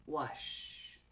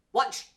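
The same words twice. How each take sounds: First: Wash ending in a slow, breathy sh; soft sh. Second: Watch with a fast, crisp ch ending; quick ch. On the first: Teacher contrasts slow sh in wash. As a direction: let wash fade out on a long sh. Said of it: "Almost the same". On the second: Teacher stresses the faster ch in watch. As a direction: end watch on a short ch snap. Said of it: "Almost the same, but that C H, much faster". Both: Shown as a demonstration.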